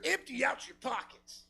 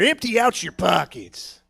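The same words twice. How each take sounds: First: Soft, higher, distant demand; a disembodied robber's voice, barely there; faint mysterious voice. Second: Slow, drawn-out mock robber voice; robber's demand. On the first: Retold or imitated. Unseen robber calling to a passer-by, faint and eerie. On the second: Unseen robber to a passer-by, slow mock demand. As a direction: stretch out the demand at talking volume.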